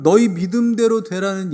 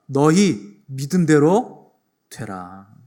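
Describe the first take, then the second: First: 너희 punched louder, slow; stress on 너희. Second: Slow, weighty pronouncement of 믿음대로; solemn proclamation. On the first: Shown as a demonstration. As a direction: lean on 너희 as the key word. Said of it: "이 선포가 얼마나 아름답고". (너희를 힘주어 천천히) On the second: Acted. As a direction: proclaim 너희 믿음대로 되라 slowly and gravely. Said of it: "선포하시는 거예요". (천천히 엄숙하게 선포하듯)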